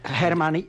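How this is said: The name is said with American English pronunciation.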